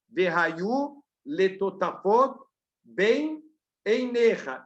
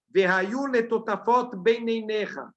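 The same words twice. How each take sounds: First: It is said slowly, each word kept apart. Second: It is said fast, the words run together. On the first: Four separate words are heard. The speaker calls it right. "Se eu falar pausadamente" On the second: The words merge into a new word that does not exist. The speaker calls it wrong. "se eu falar o Shema Israel muito rápido"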